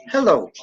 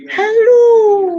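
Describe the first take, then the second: First: Said in the usual way. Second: "Hello." held out on a very long O, much higher and louder; long stretched hello. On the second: Shown as a demonstration. Reading a viewer's many-O greeting aloud, stretched high and loud. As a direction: sing out "Hello." with the O dragged on and on. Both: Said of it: "not that many O's".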